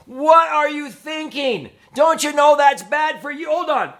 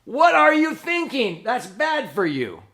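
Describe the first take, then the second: First: High, loud angry parent yell; a parent losing it at sons caught smoking, yelling high and loud. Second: High loud yell that drops off fast; angry parent. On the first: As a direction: blow up at the kids, shouting high. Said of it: "lose it and go". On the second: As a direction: snap at the kids, then ease down. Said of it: "And then you stuff out your own cigarette". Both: Retold or imitated.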